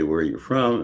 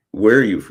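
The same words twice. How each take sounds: First: Said in the usual way. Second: A light imitation of a classmate's Queens accent, said louder, breaking off on "Where are you f-"; mock Queens accent on "Where are you f-", with a broad open "Where". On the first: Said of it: "you know, we say". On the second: Freshman girl asking the new kid where he's from, in a Queens accent. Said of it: "Queens accent".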